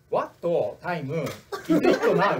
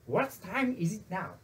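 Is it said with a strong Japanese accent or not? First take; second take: strong accent; not. First: It is said with a strong Japanese accent. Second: It is said without a strong Japanese accent.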